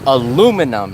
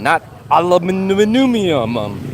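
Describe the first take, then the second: First: The word ends in 'num' without an extra syllable. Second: The word ends in 'nium' with an extra syllable. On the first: The speaker calls it right. "That's how you say it" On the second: The speaker calls it wrong. "Europeans add that extra I"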